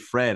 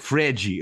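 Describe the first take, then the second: First: The name ends on a plain d sound. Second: The name ends with an added 'jee' vowel sound. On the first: The speaker calls it wrong. "they say Fred" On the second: The speaker calls it right. "you have to pronounce like this, it's like Fredgy"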